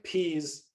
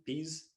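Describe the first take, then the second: First: Said in the usual way. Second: Peas with the p said without aspiration, no puff of air; peas, soft unaspirated p as in Indian English. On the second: Shown as a demonstration. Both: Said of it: "often produced without aspiration".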